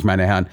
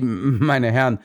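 First: "meine Herren" said teasing and amused; mocking. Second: "meine Herren" said slow and halting; stammering. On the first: The guard mocks the detectives, teasing "meine Herren". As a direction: scoff "meine Herren" at them. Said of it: "lachte der Wachmann laut los". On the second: Acted. The guard apologizes to the detectives, halting "meine Herren". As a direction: falter over "meine Herren". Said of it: "stammelte er".

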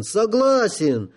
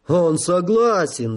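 First: Repeated word shot up high and slow; overjoyed, higher. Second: Overjoyed. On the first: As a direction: crow it again, much higher. (радостно, высоко) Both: A narrator's reading. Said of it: "обрадовался генерал Горбун".

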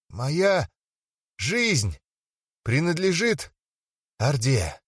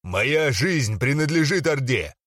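First: Said in the usual way. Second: Slow barked declaration; barked oath. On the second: Acted. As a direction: bark the oath slowly. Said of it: "рявкнул".

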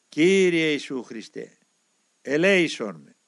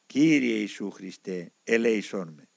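First: Slow, drawn-out prayer; prayer said aloud. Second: Slow, low recital of the prayer; quoted prayer. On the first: Acted. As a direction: recite the prayer slowly, with force. Saying the prayer aloud at work. (αργή, δυνατή προσευχή) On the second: A narrator's reading. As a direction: quote the prayer slowly, in a lowered voice. Narrator quotes the prayer as explanation. (αργή, χαμηλόφωνη παράθεση προσευχής)

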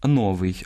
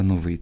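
First: Новий stressed on the first syllable, НО-; wrong stress. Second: Новий stressed on the final -ВИЙ; correct stress. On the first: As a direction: hit НО in новий. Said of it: "неправильне наголошування слів". (наголос на першому складі: новий) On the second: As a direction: hit the last syllable of новий. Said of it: "а треба новий". (наголос на останньому складі: новий) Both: Shown as a demonstration.

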